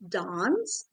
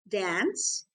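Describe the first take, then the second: First: The vowel is a long open ah sound. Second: The vowel is said the American way. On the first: "in Indian English, we pronounce it as" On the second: "the ones pronouncing it differently is following American English"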